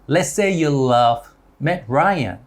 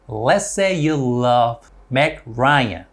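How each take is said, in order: First: The sentence is said at a fast pace. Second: The sentence is said at a normal pace.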